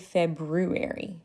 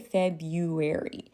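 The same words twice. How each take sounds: First: The first r sound is clearly pronounced. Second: The first r sound is left out. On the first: "I don't say February. If you, like the R, the brr, I don't say that" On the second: "I say February"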